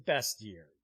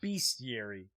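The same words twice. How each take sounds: First: The first syllable sounds like 'best'. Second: The first syllable sounds like 'beast'. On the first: "if you read it as it's spelled" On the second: "A bunch of beasts and creatures. So I also hear people pronounce it"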